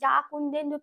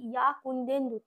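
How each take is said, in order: First: The first word starts with a 'j' sound. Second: The first word starts with a 'y' sound. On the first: The speaker calls it wrong. "তখন তো আমরা বলি না যা কুন্দেন্দু" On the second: The speaker calls it right. "কি বলি ইয়া কুন্দেন্দু"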